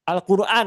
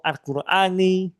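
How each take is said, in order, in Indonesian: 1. Kata ini berakhir dengan n tanpa vokal. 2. Kata ini berakhir dengan vokal i pendek. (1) "suka men mensukunkan membaca isim" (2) "atau Al-Qurani"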